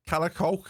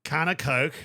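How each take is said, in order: First: "Calacolk" run together as one Scouse word; Scouse can of Coke. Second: "Can of Coke" in clear separate American words. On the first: Teaching the co-host a Scouse phrase, said as one word. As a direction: say "Calacolk" the Liverpool way, slurred into one. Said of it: "can you say that?". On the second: The American repeats the Scouse phrase, in his own accent. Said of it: "but you're saying can of Coke". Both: Shown as a demonstration.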